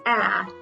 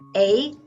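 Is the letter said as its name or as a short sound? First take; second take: short sound; name. First: It is said as the short sound in apple. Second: It is said like the letter's name, ay. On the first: "short vowel sound" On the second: "long vowel sound"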